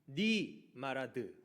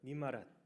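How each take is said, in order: First: The phrase is said slowly and carefully. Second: The phrase is said quickly and run together.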